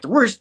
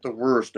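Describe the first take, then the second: First: High, loud questioning echo; taken aback. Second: Said in the usual way. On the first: Retold or imitated. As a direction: repeat it back as a startled, rising question. Spidey echoes Strange's answer back.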